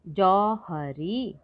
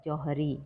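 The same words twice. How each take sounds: First: Slow syllable-by-syllable word. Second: Said in the usual way. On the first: Shown as a demonstration.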